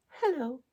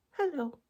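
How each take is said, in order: Both takes have the same delivery.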